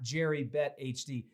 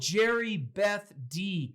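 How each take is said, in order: First: The middle part is read as Bet H. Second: The middle part is read as Beth. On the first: The speaker calls it wrong. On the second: The speaker calls it right. "Got it"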